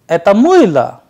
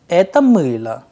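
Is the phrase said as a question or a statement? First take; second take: question; statement. First: It has the intonation of a question. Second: It has the intonation of a plain statement. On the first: It asks whether this is a soap. "which means is this a soap, an interrogative sentence" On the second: It states that this is a soap. "a simple sentence which means this is a soap"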